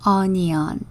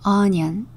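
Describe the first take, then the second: First: The word is said slowly. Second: The word is said quickly.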